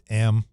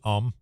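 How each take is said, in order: First: The filler has an open 'a' vowel, like am. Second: The filler has an 'uh' vowel, like um. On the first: This is how people in the UK say it. "it's am" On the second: This is how the speaker's own side says it. "they don't say um"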